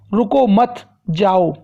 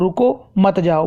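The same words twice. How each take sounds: First: There is a pause after रुको मत. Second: There is a pause after रुको.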